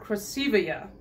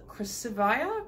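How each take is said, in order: First: "Krasivaya" as kruh-SEE-vee-uh; corrected Krasivaya. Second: "Krasivaya" as kris-ih-VY-uh, unsure; mispronounced Krasivaya. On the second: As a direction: say "Krasivaya" with a VY in the middle, questioning. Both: Real, not acted. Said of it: "Well, that was wrong".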